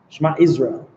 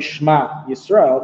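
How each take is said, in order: First: The two words run together into one sound. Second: The two words are kept clearly apart. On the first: The speaker calls it wrong. "If you say it too quickly" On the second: The speaker calls it right. "you don't say Shema Yisrael"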